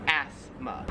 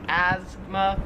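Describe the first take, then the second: First: "asthma" slow and low with a clear s, ASS-ma; low, drawn-out "asthma" with an s, not z; S sound. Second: "asthma" drawn out with a z, AZ-ma; slow, buzzing z in "asthma"; Z sound. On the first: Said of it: "like an S sound". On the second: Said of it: "more like a Z sound". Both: Shown as a demonstration.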